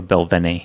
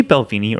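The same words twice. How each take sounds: First: "Belvene" with a short e in the middle; short E pronunciation. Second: "Balvenie" with a long ee in the middle; long EE pronunciation. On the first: Offering co-host the other option, short E pronunciation. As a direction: say "Belvene" as bel-VEN-ay. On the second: Asking co-host which name they use, long EE pronunciation. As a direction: say "Balvenie" as bal-VEE-nee. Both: Shown as a demonstration. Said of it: "Do you say Balvenie or Belvene".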